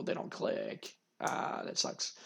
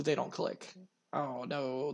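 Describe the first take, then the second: First: Under the breath, whispered; whispered disappointment. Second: Softer, deflated sigh of a line; disappointed. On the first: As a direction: barely voice the letdown. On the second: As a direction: let it drop in disappointment. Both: Real, not acted. Disappointed at game result.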